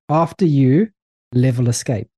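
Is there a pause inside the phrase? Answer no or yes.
no. It is said without any pause inside. "I think you need a pause"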